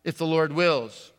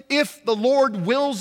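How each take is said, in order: First: "If the Lord wills" tossed off lightly as a stock phrase; the casual throwaway "If the Lord wills"; rote cliche. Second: "if the Lord wills" drawn out slow, each word weighted; slow, emphatic. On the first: Retold or imitated. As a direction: say "If the Lord wills" like an empty habit. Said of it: "I heard that a lot". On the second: Shown as a demonstration. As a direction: lean hard on "if the Lord wills" as a solemn phrase. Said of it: "that should not be a cliche".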